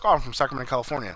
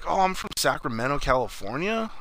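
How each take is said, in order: First: It is said at a normal pace. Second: It is said slowly and drawn out.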